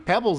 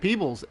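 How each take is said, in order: First: The first vowel is a short e sound. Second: The first vowel is a long ee sound. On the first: The speaker calls it right. "it's actually Pebbles" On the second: The speaker calls it wrong. "two E's instead of two B's"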